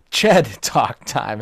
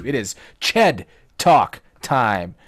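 First: Laughing through the words; cracking up mid-phrase. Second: Slow, drawn-out segment title; announcer voice. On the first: Real, not acted. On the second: Shown as a demonstration. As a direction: announce it slowly like a show segment. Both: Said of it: "I can't even say it without laughing".

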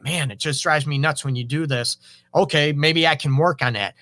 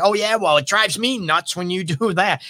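First: Name it gently, then offer to change; calm, honest admission. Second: A higher, mock-defensive retort; snippy comeback. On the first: Acted. Calm owning of a pet peeve. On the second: Partner throws the complaint right back, mildly snippy and defensive. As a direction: fire it back like a tit for tat.

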